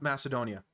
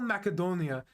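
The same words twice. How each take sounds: First: The name is said with an American English pronunciation. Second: The name is said with a Macedonian pronunciation. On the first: "in American English, it's called Macedonia" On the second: "it's called Macedonia in Macedonian"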